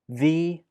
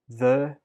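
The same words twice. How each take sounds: First: The word has its full, strong vowel. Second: The word has a weak, reduced schwa vowel.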